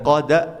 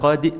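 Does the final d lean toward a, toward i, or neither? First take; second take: a; i. First: The final d leans toward an a vowel. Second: The final d leans toward an i vowel. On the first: "Kalau condong ke fathah kan qada" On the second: "Kalau condong ke kasrah"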